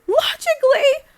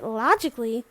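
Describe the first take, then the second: First: LOGICALLY thrown back loud and very high; outraged echo of LOGICALLY. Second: Said in the usual way. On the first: Acted. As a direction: shriek "Logically?" in disbelief. Mother throws the word back.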